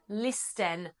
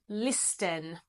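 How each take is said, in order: First: The middle has a pronounced T sound. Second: The middle has a pronounced T sound.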